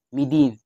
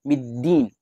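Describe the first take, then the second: First: The d sound is short and single. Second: The d sound is held long and doubled. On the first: The speaker calls it wrong. "Hada khata. Walang ganun" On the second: The speaker calls it right. "Dapat yun musyaddad"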